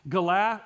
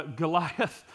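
First: "Goliath" broken off after a wrongly weighted second syllable; misplaced syllable stress. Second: Said in the usual way. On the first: Real, not acted. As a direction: stumble on "Goliath", cutting it to "Go-la". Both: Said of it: "put the right emphasis on the right syllable".

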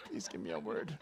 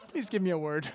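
First: Low, softer mock begging; silent plea voiced. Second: Mock begging, voice lifted and louder; louder repeated plea. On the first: Eyes begging the prophet for a word, low plea. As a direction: plead under your voice, pitched way down. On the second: Eyes begging the prophet for a word, louder plea. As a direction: plead it out openly in your own register. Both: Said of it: "but I think my eyes".

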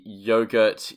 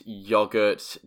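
First: Yogurt with a long oh, YOH-gurt; British yogurt. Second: Yogurt with an open ah, YAH-gurt; American yogurt. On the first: Contrasting British and American, British yogurt. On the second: Contrasting British and American, American yogurt. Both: Shown as a demonstration. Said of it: "how Americans and British people differ".

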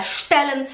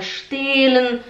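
First: Short open E in "stellen"; quick first vowel in "stellen"; correct short vowel. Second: Long closed E in "stellen", like "stehlen"; students' long vowel. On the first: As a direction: model "stellen" briefly. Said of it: "Em vez de falar stellen". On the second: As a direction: drag the E of "stellen". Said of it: "elas falam stellen". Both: Shown as a demonstration.

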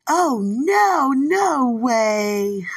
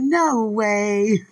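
First: High, loud, ringing "Oh, no, no way"; emphatic no way. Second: Loud, firm "No way"; emphatic no way. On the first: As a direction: shut it down with a bright loud refusal. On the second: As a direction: repeat it loud and final. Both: Retold or imitated. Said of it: "That's how they said it".

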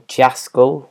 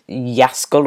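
First: "Jaskol" with an English J, like JASS-kol; alternative pronunciation guess. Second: "Jaskol" with a Y sound, like YASS-kol; first pronunciation guess. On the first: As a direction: start "Jaskol" with a hard J as in jazz. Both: Real, not acted. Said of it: "Jaskol or Jaskol".

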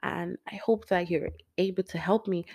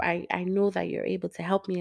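First: Said in the usual way. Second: I know said with calm conviction; stress on know. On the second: Shown as a demonstration. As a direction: say know, not hope, firmly. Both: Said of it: "Not I hope".

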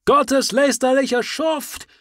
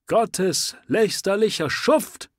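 First: High, loud, slow outraged shout; full shout. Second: High, loud cry of outrage; shouting. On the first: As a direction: scream it with full fury. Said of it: "Das kann besser interpretiert werden". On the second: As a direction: yell it at the man with the sword. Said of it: "schrie der Anhänger". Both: Acted.

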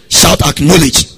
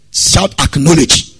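First: Second, louder shout to the congregation; louder shouted cue. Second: Shouted cue. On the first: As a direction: Acknowledge called out louder. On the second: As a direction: call out Acknowledge loud. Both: Shown as a demonstration. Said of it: "I can't hear your voice".

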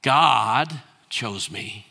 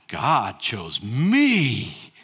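First: "God" lifted and slow, "chose me" drawn out; slow, with weight on "God"; "God chose me" said slowly with the word God leaned on; stress on God. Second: "me" stretched and falling, very slow; "God chose me" slow, with the weight moved to "me"; stress on me. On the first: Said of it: "It's a very short trip from". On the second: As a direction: lean hard on "me" to sound proud. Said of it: "the emphasis is all on the wrong place". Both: Shown as a demonstration.

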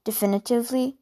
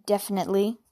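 First: Definitively said carefully, syllable by syllable; corrected word. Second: Wrong word definitely; misread word. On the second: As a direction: definitely read in place of definitively. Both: Real, not acted.

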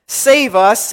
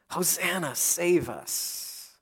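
First: Raised, louder plea for rescue; crying out. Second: Much softer, trailing plea; hushed cry for help. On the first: Preacher voices the people hailing their king, crying out. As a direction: call it out as a crowd's cry for help. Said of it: "people are crying out in the same breath". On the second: Preacher asks listeners if they have cried so, hushed plea. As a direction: let the cry sink to a quiet, slow plea. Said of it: "Have you ever cried out in this way?". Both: Acted.

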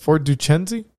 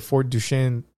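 First: "Duchesne" as "doo-CHEN-zee", questioning; unsure pronunciation. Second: "Duchesne" as "doo-SHAYN", ending on a fall; first pronunciation attempt. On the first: Host unsure of the place name, asking "doo-CHEN-zee". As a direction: sound out "Duchesne" in three syllables, ending "-zee". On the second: Host reading a place name aloud, "Duchesne" as "doo-SHAYN". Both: Real, not acted. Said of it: "am I saying that right?".

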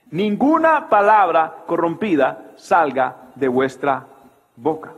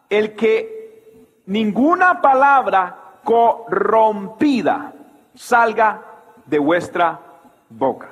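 First: Said in the usual way. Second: El que ninguna palabra corrompida said slowly, a pause before salga, de vuestra, boca; each word of ninguna palabra corrompida salga set apart; slow stressed reading. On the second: Shown as a demonstration.

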